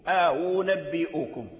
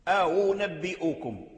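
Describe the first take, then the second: No difference in how they are said.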